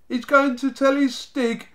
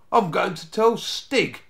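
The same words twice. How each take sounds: First: Very high, loud jeer; high-pitched derisive gang cackle; cackling mockery. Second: Slow, deliberate, raised voice; firm, unhurried boyish threat; calm announcement. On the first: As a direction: hoot it back in ridicule. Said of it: "crackled the Snargets". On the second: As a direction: state it slowly and confidently. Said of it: "he said calmly". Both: A narrator's reading.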